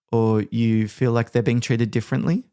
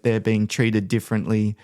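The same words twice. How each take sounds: First: Rising tune on "differently" at the end; upward inflection. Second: Said in the usual way. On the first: Shown as a demonstration. Team leader mirroring a complaining staff member, rising end. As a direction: lift the end of "differently" like a question. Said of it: "upward inflection on the end of our sentence". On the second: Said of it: "coming to you complaining".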